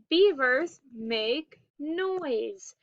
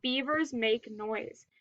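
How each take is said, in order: First: "beavers make noise" slowly, word by word; slow model reading. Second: Said in the usual way. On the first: Shown as a demonstration. Teacher reading a story title to pupils, slow and deliberate. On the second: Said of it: "read a story called".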